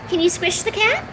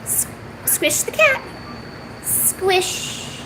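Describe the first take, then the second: First: High cooing cue to a pet; cooing request to the cat. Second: Hushed coaxing to the cat; whispered cue. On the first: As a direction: coax the cat, higher. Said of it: "repeats cue whispered". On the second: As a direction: whisper "squish the cat" softly. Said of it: "repeats cue". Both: Shown as a demonstration.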